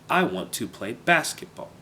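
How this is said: The word basketball carries clear stress. The speaker calls it right. "There's an obvious stress on basketball"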